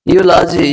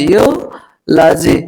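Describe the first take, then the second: First: Said in the usual way. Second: यूलॉजी slowed to "yoo ... laji"; syllable by syllable. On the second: Shown as a demonstration. Teacher demonstrates EU read as यू, यूलॉजी slowly broken up. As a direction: stretch the यू in यूलॉजी, pause, then लॉजी. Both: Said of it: "यू से भी".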